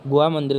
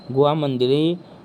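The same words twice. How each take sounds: First: Said in the usual way. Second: गुहा said slowly, spelt out as gu-haa, not Goa; careful guha. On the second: Shown as a demonstration. Teacher correcting Goa to गुहा, slow and deliberate. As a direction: stretch out गुहा so no one hears Goa. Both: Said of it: "गुहा है ये".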